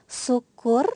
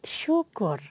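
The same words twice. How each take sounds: First: The word begins with a plain 's' sound. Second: The word begins with a 'sh' sound. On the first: The speaker calls it wrong. "bukan syukur" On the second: The speaker calls it right. "yang menggunakan S Y itu kata syukur"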